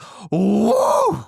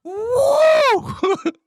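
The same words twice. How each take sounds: First: A sudden high whoop like the creature in the woods; imitated howler whoop. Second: A much higher, louder full-throated whoop shouted out; loud imitated howler whoop. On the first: Telling friends about the night noise, imitated howler whoop. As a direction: mimic the wild animal's whoop. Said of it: "is what it sounded like". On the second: Asked to repeat the noise into the microphone, loud howler whoop. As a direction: belt the animal whoop into the mic. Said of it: "Can you do that one more time, right in the microphone?".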